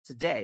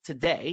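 First: "today" with a full "too" first syllable; wrong pronunciation. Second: "today" with a schwa, "tuh-DAY"; correct pronunciation. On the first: Teacher showing what to avoid, mispronounced "too-day" for "today". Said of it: "ไม่ใช่ today นะฮะ". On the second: Teacher asking students to change, corrected "tuh-DAY" for "today". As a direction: say "today" as "tuh-DAY", stress on the second syllable. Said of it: "เปลี่ยนนะลูก today". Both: Shown as a demonstration.

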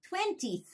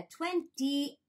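First: Said in the usual way. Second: "twentieth" broken slowly into twen-tee-eth; split-up syllables. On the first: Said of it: "じゃなくて、twentiethがちょっと言いにくい". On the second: Shown as a demonstration. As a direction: spell out the sounds of "twentieth", a clear "eth" at the end. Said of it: "twentiethがちょっと言いにくいから". (「twentieth」をtwen-ti-ethと区切って発音)

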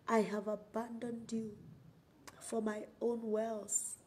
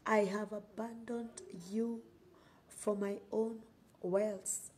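The two takes are said the same way.

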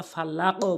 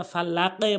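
First: ফালাকও with the final q bouncing up to a rounded o; correct qalqala. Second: ফালাকে with the echo bent down to an e sound; wrong qalqala. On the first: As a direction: echo the q upward in ফালাকও. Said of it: "ফালাকও বলবো". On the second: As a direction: let the final q bounce into e in ফালাকে. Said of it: "ফালাকে বলবো না". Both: Shown as a demonstration.

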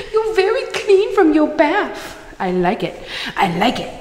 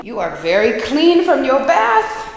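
First: Much higher, sing-song puppy voice. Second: Doggy talk. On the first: Owner cooing at her dog after his bath. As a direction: squeak it out to the dog. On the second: Owner praising her clean dog in baby talk. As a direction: coo at the freshly bathed puppy. Talking to dog after bath. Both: Real, not acted.

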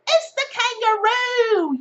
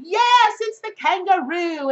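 First: Slow, high, loud Aussie announcement; Australian accent. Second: Quicker, lighter Aussie repeat; tossed-off Australian accent, less stretched. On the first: Australian accent revealing the card to viewers. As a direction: stretch it out in a hammed-up Australian accent. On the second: Australian accent confirming the card to viewers. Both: Pretend. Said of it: "I'm done with my Australian accent".

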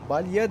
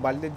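First: Balya said with a clear "ya" ending; proper word form. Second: "balya" pronounced as "balle"; own colloquial form. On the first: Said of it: "Balya demem lazım". ("Balya", sonu "ya" ile doğru söyleyiş) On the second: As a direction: say "balya" with doubled l and -e ending. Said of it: "ama ben balya diyorum". ("balya" yerine "balle" diye söyleyiş) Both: Shown as a demonstration.

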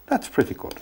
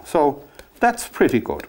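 First: Soft whispered repeat of the praise. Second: Said in the usual way. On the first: Real, not acted. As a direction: breathe it out as a private aside. Painter repeats his verdict, whispered.

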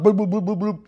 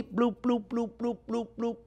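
First: Rapid-fire run of bloops; too-fast boiling. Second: Soft, evenly spaced high bloops; slow simmer bubbling. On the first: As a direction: imitate a hard boil, bloops tumbling together. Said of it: "that's no good". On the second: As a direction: imitate a gentle, slow simmer. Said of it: "let that cook very slowly". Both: Shown as a demonstration.

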